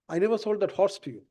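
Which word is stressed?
horse. The word 'horse' carries the main stress. A different animal was sold. "I sold you a cow or a buffalo or a donkey"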